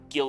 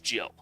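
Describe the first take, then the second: First: It begins with a hard G sound. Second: It begins with a soft J sound. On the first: The speaker calls it right. "Gil is how it's pronounced" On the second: The speaker calls it wrong. "for a long time, I thought it was Jill"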